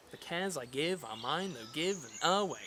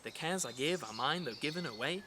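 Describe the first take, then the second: First: Rigid dee-DUM beat, landing on "er" in "give and er way"; eggy forced stress. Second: Singsong beat with "given away" skipping lightly to WAY; skipping stress. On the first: Teacher demonstrates what sounds wrong, heavy ER in "er way". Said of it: "It, it just sounds kind of eggy". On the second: Teacher shows the better reading, "given away" with light skip to WAY. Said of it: "It doesn't sound as good as". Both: Shown as a demonstration.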